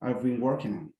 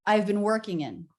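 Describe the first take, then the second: First: "working" lengthened and falling; stretched stress. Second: "working" lengthened in a wave; stretched stress. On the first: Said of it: "Yes, that's clear to me". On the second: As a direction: lean into "working". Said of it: "a little bit more of the". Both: Shown as a demonstration.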